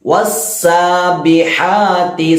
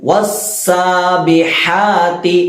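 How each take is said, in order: The two takes are said the same way.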